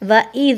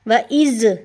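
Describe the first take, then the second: First: The final consonant is pronounced soft and light. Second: The final consonant is pronounced hard and emphatic. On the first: The speaker calls it right. "इस ज़ाल को हमेशा नरमी के साथ पढ़ा जाता है" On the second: The speaker calls it wrong. "सख्ती से अगर आप पढ़ते हैं ना ज़"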